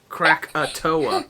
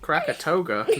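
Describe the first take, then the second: First: No g sound comes before the final vowel. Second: A g sound comes before the final vowel. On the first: The speaker calls it right. "Kind of not Krakatoga" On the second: The speaker calls it wrong.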